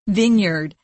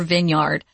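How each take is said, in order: First: The second syllable is reduced, like 'yerd'. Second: The second syllable sounds like a full 'yard'. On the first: The speaker calls it right. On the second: The speaker calls it wrong.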